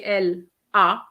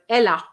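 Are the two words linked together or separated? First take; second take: separated; linked. First: The two words are said separately, not linked. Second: The two words are linked smoothly together. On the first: The speaker calls it wrong. "You don't say elle a" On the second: The speaker calls it right. "but elle a. ... elle and a is compulsory"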